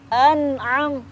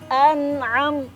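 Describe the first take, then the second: The two takes are said the same way.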